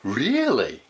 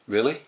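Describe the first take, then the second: First: It is said in a surprised way. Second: It is said in an uninterested, flat way. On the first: The listener did not expect the news. "if you're really surprised" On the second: The listener does not care much about the news. "we're not that interested. Maybe you go like"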